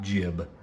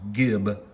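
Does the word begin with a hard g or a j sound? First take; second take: j sound; hard g. First: The word begins with a j sound. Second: The word begins with a hard g sound. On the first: The speaker calls it wrong. "not jib" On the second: The speaker calls it right. "so it's pronounced gib"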